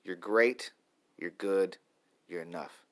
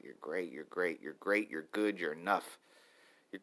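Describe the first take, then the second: First: Said in the usual way. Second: Soft, murmured self-affirmation; murmured mantra. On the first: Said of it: "that's the mantra for today". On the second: Shown as a demonstration. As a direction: whisper the mantra gently to yourself. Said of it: "That's the mantra for today".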